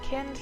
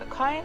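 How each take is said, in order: First: The vowel sounds like the one in 'kinder'. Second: The vowel sounds like the one in 'find'. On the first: "kind like kinder" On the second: "kind like find"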